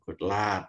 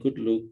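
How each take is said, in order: First: The vowel in luck is open, mouth wide. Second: The vowel in luck sounds like look. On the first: This takes more effort to say. "bilang good luck itu tidak tak mangap itu" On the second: This is how people in northern England say it. "kalau bilang good luck, bilangnya good look gitu"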